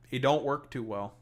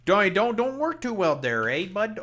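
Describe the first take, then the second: First: Said in the usual way. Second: Loud, high, hammed-up Canadian; extra Canadian accent. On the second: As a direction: lay the Canadian accent on thick. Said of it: "being a bit extra Canadian".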